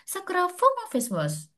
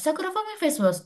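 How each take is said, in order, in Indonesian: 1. Namanya diucapkan dengan lambat dan tegas. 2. Namanya diucapkan dengan cepat dan terburu-buru. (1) "lebih meyakinkan aja" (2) "terlalu sedikit ngebut juga"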